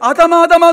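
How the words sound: It sounds angry and scolding.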